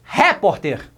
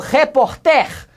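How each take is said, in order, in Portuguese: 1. O acento tônico está na primeira sílaba. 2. O acento tônico está na última sílaba. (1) "Vamos colocar no re" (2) "Também não"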